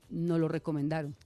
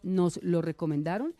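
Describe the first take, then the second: First: The s of the first word is dropped. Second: The s of the first word is clearly pronounced. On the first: It sounds like a negation. The speaker calls it wrong. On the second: It was recommended to us. The speaker calls it right.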